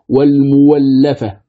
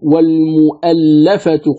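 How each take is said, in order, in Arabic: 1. يُنطق صوت الواو بعد الميم. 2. تُنطق الهمزة بعد الميم. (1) "يبدلها واوا مفتوحة" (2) "القراء يقرؤون"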